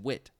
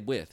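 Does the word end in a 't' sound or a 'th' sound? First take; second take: t; th. First: The word ends with a hard 't' sound. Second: The word ends with a soft 'th' sound. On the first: The speaker calls it right. "you said wit" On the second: The speaker calls it wrong. "you don't say with"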